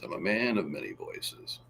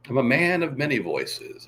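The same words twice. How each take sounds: First: Much lower and softer; low, soft second take; quiet low take. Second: Said in the usual way. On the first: Shown as a demonstration. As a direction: drop the voice right down.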